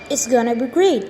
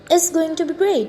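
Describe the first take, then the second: First: 'Going to' is reduced to a quick 'gonna'. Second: 'Going to' is said fully, both words clear.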